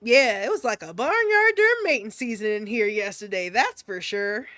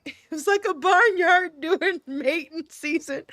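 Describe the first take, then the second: First: Composed folksy delivery, no laughing; straight-faced. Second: Breaking into laughter mid-line; cracking up. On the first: Acted. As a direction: deliver the silly line with a straight face. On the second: Real, not acted. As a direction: try the line and fail, laughing through it. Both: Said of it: "say this with a straight face".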